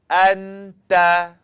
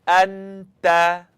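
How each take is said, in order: The two takes are said the same way.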